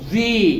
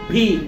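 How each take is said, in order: First: The v is made with lip against teeth. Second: The v is made with both lips, breathy. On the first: The speaker calls it right. "এফ যেভাবে উচ্চারণ করেছি ভিও একই রকম উচ্চারণ করব" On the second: The speaker calls it wrong. "আমরা বলি কি ভি"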